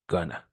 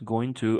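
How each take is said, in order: First: The words are blended into one short word. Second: Both words are said fully and separately.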